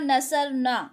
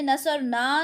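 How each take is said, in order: First: The final vowel is short. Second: The final vowel is long. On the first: The speaker calls it right. "मैंने कहा नसर न" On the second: The speaker calls it wrong. "मैंने नसर ना नहीं कहा"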